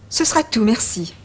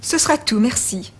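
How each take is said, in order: Both takes have the same delivery.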